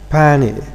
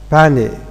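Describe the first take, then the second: First: The t after the n is dropped. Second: The t after the n is dropped.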